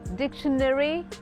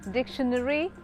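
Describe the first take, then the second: First: It is said in an American accent. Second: The same.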